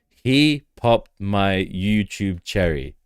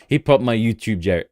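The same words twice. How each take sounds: First: It is said with a straight, serious face. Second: It is said while laughing, not straight-faced.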